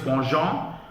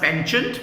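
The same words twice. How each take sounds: First: It is said with a French-style pronunciation. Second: It is said as spelled, English-style. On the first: The speaker calls it right. "The correct pronunciation is penchant" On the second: The speaker calls it wrong. "It is written as penchant"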